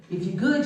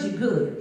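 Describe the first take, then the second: First: "If you're good" with good rising, like a setup; rising tune. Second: "you're good" with good falling, settled and final; falling tune. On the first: Explaining her Southern creed, rising on good. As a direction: rise on good to pose the condition. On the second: Explaining her Southern creed, falling on good. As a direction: drop good down to close it. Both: Shown as a demonstration. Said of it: "I come from Southern upbringing".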